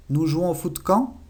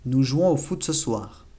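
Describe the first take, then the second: First: "Nous jouons au foot quand?" higher, rising on quand; question intonation. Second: "Nous jouons au foot ce soir" slow, falling at the end; statement intonation. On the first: Teacher turns the statement into a question, rising. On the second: Teacher reads the statement before the question, falling. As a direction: say it as a flat statement. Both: Shown as a demonstration. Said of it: "Lo único que se cambia es la entonación".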